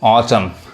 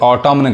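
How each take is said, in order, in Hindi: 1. शब्द के अंत में n की कोई ध्वनि नहीं है। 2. शब्द के अंत में n की साफ़ ध्वनि सुनाई देती है। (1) "साइलेंट है, नहीं पढ़ाएगा" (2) "जनरली इसको लोग गलत पढ़ते हैं"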